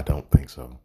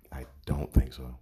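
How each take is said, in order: First: I don't think so said louder and firmly; emphatic, louder. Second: Said in the usual way. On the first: Real, not acted. Dismissing the movie's logic, a louder flat refusal. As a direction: flatly refuse with a louder push. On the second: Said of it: "I, I don't think so".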